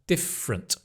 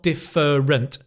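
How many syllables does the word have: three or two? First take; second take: two; three. First: The middle vowel is dropped, joining F and R. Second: Every syllable is said in full. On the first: The speaker calls it right. "The fr, like from" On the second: The speaker calls it wrong. "Not different"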